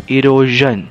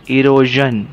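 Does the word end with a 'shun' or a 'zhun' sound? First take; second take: zhun; zhun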